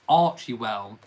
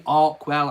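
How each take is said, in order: First: The name begins with an 'arch' sound. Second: The name begins with an 'ark' sound. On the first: "I'm still tentatively call, pronouncing um, their new non-profit Archewell" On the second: "but it could be Arkwell"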